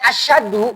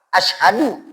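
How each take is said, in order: First: It has an sh sound but no h. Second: It has an sh sound followed by an h. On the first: It means heavier. The speaker calls it wrong. "benar shin, tapi tidak ada huruf H di tengahnya" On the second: It means I bear witness. The speaker calls it right. "Kalau asyhadu terdiri dari alif, shin, ha, dal, ini tepat"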